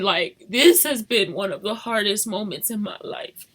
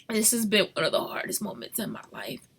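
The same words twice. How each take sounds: First: Said in the usual way. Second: Whispered, barely voiced. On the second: Real, not acted. Mother confessing hardest time, whispered. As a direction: breathe it out, no voice.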